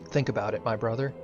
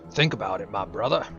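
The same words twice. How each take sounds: First: It is read in the speaker's normal voice. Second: It is said in a put-on character voice.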